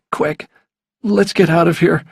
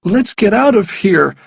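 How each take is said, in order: First: Higher-pitched, mildly urgent plea; a touch of alarm, pitched up. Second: High, loud, urgent plea; raised, insistent, pitched well up. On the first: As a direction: urge them to leave, without shouting. Boy wants to flee danger. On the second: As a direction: press hard to get away now. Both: A narrator's reading.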